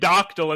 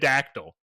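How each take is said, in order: First: The first vowel sounds like 'dock'. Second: The first vowel sounds like 'dack'. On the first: The speaker calls it wrong. "Why are we saying doctyl" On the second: The speaker calls it right. "instead of dactyl"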